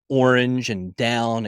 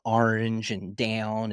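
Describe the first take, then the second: First: It is said in a standard accent. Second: It is said in a Baltimore accent.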